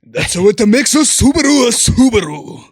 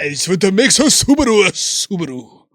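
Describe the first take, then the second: First: Loud, high car commercial voice; Subaru ad voice. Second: Anime-style car ad line. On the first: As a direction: boom it like a car ad. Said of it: "I'm gonna do my Subaru thing". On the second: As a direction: squeal it like an anime character. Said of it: "You sound like an anime". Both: Pretend.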